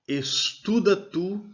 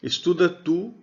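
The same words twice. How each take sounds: First: Estuda tu drawn out slowly, rising on estuda; slow model phrase. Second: Said in the usual way. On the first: Shown as a demonstration. Teacher modelling the imperative for students, slow and rising. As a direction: spell out estuda tu slowly for the class. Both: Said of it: "eu dou ordem a partir da segunda pessoa".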